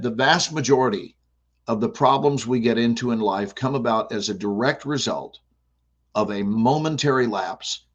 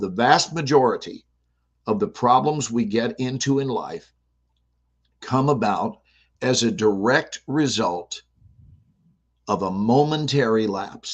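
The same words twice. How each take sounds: First: It is said at a normal pace. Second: It is said more slowly.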